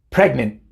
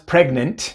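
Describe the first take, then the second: First: The final T is made as a glottal stop. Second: The final T is released without a glottal stop. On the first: The speaker calls it right. "pero es pregnant" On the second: The speaker calls it wrong. "No es pregnant"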